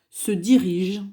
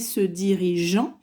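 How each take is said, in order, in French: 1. La terminaison est muette après le son G. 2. La terminaison se prononce comme une voyelle nasale. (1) "Mais ça se prononce E" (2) "On ne va pas dire"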